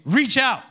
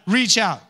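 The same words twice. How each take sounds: First: "Reach out" called higher and louder; preacher calling "Reach out" again, louder. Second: Congregation lead "Reach out"; preacher calling "Reach out"; call and response. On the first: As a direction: call "Reach out" out with more lift. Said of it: "Let's do it again". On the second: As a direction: call it out for the room to echo. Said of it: "Can we say that?". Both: Shown as a demonstration.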